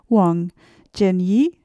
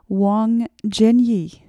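First: It is said with Chinese tones. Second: It is said with flat English intonation. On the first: The speaker calls it right. "I think it'd be more like" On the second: The speaker calls it wrong. "I didn't say that with the correct Chinese intonations"

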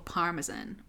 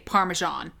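First: It is said in a non-American accent. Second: It is said in an American accent.

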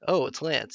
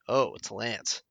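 First: It is said with cheerful, easy recognition. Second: It is said with shocked, dismayed recognition.

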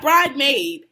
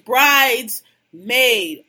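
First: It is said without the s after bride. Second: It is said with an s after bride. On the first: The speaker calls it wrong. "Not bride maid" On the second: The speaker calls it right. "It's brides maid"

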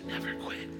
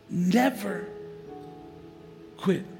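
First: It is spoken in a whisper. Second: It is spoken in a normal full voice.

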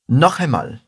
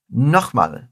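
First: It is said as the full two-word phrase. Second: It is said quickly, contracted into one word.

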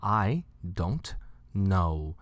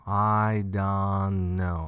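First: The T in don't is clearly pronounced. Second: The T in don't is basically dropped. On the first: The speaker calls it wrong. "我不会讲I don't know" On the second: The speaker calls it right. "那个T 是基本上没有发出来"

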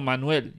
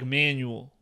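First: The name is said with a Spanish pronunciation. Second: The name is said with an English pronunciation. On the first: The speaker calls it right. "no, Manuel" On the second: The speaker calls it wrong. "there's no reason I should be calling someone named Manuel, like Manuel"

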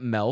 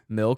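First: The vowel sounds like the letter name 'L'. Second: The vowel sounds like the 'ill' in ill. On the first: The speaker calls it wrong. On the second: The speaker calls it right. "Ill. Not L"

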